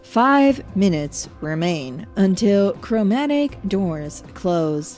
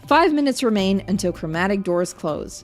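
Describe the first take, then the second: First: It is read in a stiff, flat robotic voice. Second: It is read in a plain, natural newsreader voice. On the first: The speaker calls it wrong. "Why would you speak like a robot?" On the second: The speaker calls it right. "just news reader voice"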